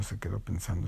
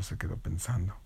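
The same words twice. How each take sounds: First: Softer, lower musing; quiet thinking. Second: Fading to a breathy whisper; whispered thinking. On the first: Storyteller drawing out the pause, softly and low. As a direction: let it drift off as you think. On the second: Storyteller trailing into suspense, in a whisper. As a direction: let it dissolve into a whisper. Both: Acted.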